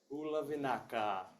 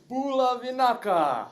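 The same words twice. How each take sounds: First: It is said with ordinary, low energy. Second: It is said with lively, high energy.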